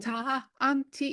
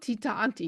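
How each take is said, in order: First: An echo 'ha' follows the first syllable. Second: No echo 'ha' follows the first syllable. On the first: The speaker calls it right. "you're doing a taha?" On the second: The speaker calls it wrong. "It's not tea Auntie"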